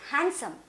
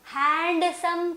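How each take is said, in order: First: The d sound is left out. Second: The d sound is clearly pronounced. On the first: The speaker calls it right. "డి అనేది silent letter" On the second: The speaker calls it wrong. "హ్యాండ్సమ్ కాదు"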